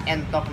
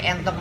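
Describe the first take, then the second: First: "entok" with an unaccented schwa e; mispronounced first vowel. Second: "entok" with a clear accented é; accented é vowel. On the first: Teacher shows pupils the mistake, "entok" with schwa e. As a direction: say "entok" starting on a neutral uh-like e. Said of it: "tapi entok make eh dicurekan". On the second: Teacher corrects a pupil's reading, "entok" with accented é. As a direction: say "entok" starting on é, as in éntok. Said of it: "make eh dicurekan". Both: Shown as a demonstration.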